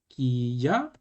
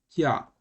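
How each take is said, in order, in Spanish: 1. Se dice en dos sílabas separadas. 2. Se dice en una sola sílaba fusionada. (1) "En lugar de decir ki ya" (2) "sería como si fuera un solo sonido"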